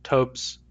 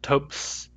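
First: The word ends with a Z sound. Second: The word ends with an S sound. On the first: "These words have Z" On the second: "If I say these with S instead"

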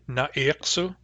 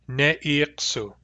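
First: The first vowel is a short a sound. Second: The first vowel is a short e sound. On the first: This is the Central and Northern dialect form, without umlaut. "In Central and Northern, it's a short a" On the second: This is the Barkly Sound dialect form, with umlaut. "in Barkly Sound is ne'iksu. with a short e in the first syllable"

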